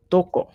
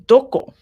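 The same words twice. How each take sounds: First: Said in the usual way. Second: "Doko?" higher and louder with a rising tune; rising question. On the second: Shown as a demonstration. The teacher showing the class a question, "Doko?" rising. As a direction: ask "Doko?" as a real question. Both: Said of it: "Doko is where".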